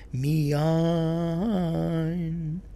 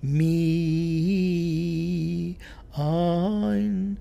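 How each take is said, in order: First: The stress is on the second syllable. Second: The stress is on the first syllable. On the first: The speaker calls it right. "accenting the second syllable" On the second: The speaker calls it wrong. "she was doing it on the first"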